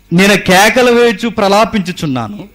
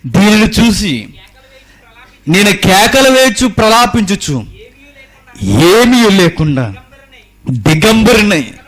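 First: Said in the usual way. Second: Slow, loud, high wailing lament; prophet's lament. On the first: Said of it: "verse read then performed". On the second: Acted. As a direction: draw out the verse like a mourning prophet. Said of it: "ఏడుస్తున్నాడట". (నెమ్మదిగా, గట్టిగా విలపించే ప్రవక్త స్వరం)

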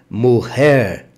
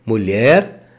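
First: Mujer with throaty j, muher; Spanish mujer. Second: Said in the usual way. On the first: Shown as a demonstration. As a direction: rasp the j in mujer like a double R. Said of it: "som de dois R's". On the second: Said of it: "Não é mulher".

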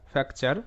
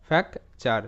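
First: Said in the usual way. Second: ফ্যাক চার as "fak", short pause, "char"; split syllables. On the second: Shown as a demonstration. Teacher sounds out the word for learners, ফ্যাক চার split in two. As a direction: keep ফ্যাক চার in two separate pieces.

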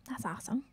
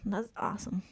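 First: Whispered dry sarcasm, barely voiced; an unvoiced sarcastic mutter to himself. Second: Said in the usual way. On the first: Real, not acted. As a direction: breathe it out as a deadpan aside. Sarcastic repeat under breath.

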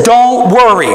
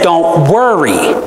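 First: DON'T hit hard and loud; firm stress on Don't; forceful command. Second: Slow, drawn Don't worry, weighed; slow firm command. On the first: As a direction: order it, don't suggest. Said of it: "this is a forceful command". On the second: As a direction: lay it down like a command. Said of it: "He said". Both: Shown as a demonstration.

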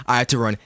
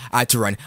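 No difference in how they are said.

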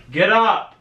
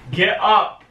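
No difference in how they are said.

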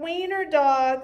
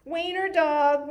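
First: Chanted, louder, taunting singsong repeat; mocking chant. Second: Chanted, louder, taunting singsong; mocking chant. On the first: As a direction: keep teasing like a playground chant. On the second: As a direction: tease him like a schoolyard chant. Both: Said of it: "laughed the other dogs".

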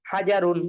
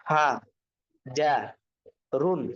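First: "হাজারুন" run together as one word, louder; whole word "হাজারুন" after sounding out; joined-up reading. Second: Syllable by syllable, long pauses between "হা", "যা", "রুন"; broken pronunciation. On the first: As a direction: blend "হাজারুন" firmly without breaks. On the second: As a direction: sound out "হা ... যা ... রুন", each alone. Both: Shown as a demonstration. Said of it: "ভাঙ্গা উচ্চারণ কিভাবে?".

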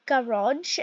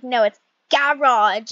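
First: "Garage" the American way, rising and unsure; wrong garage. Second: "garage" corrected firmly, louder. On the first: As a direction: say "Garage" the way she got wrong. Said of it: "And then I said". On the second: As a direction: mom correcting the word "garage". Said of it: "she was like". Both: Retold or imitated.

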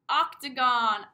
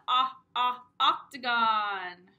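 First: Octagon drawn out, loud first vowel; stretched teacher word. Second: Ah, ah, then octagon slow and loud on the ah; vowel sound demo. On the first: Teacher modelling a word for preschoolers, slow and loud. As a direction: say octagon slowly for little kids. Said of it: "who knows what sound makes the ah". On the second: Teacher sounding out the vowel for preschoolers, slow. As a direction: isolate the short o sound, then the word octagon. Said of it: "what sound makes the ah". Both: Shown as a demonstration.

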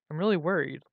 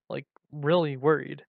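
First: Said in the usual way. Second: "really" leaned on and stretched for emphasis; stress on really. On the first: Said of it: "she said with concern". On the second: A narrator's reading. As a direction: draw out "really" to insist on it. Repeats it for emphasis.

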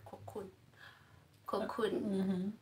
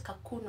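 First: "cocoon" said as koh-KOON; "cocoon" starting with a clear "koh"; first syllable as "ko". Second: "cocoon" said as kah-KOON; "cocoon" starting with a short "kuh"; first syllable as "kuh". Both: Shown as a demonstration. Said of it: "Is it cocoon or cocoon?".

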